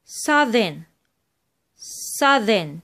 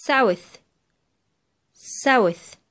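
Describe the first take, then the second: First: "southern" with buzzing th mid-word; voiced TH. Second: "south" ending on breathed th; voiceless TH. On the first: Teacher contrasts two related words, "southern" with voiced th. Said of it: "نطقت ال تي اتش هنا إيه؟ ذا". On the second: Teacher contrasts two related words, "south" with voiceless th. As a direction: say "south" falling, with unvoiced th. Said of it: "اتنطقت ث". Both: Shown as a demonstration.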